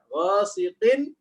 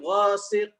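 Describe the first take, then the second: First: The word ends with an n sound. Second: The word ends without an n sound. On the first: The reading continues into the next word. "Dia dibaca ketika wasal" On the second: The reading stops at this word. "Ketika waqaf"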